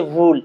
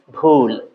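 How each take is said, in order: First: "ভুল" with an English v, vool; wrong v pronunciation. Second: "ভুল" low and drawn out as b-hool; low, aspirated "ভুল"; corrected bhul. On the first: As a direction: say "ভুল" with lip on teeth. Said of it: "আমি এভাবে বলবো না". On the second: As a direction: close both lips and push breath into "ভুল". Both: Shown as a demonstration.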